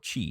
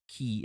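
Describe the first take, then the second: First: The word begins with a ch sound. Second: The word begins with a k sound. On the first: "or chi as some people like to pronounce it" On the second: "that is key as in K I"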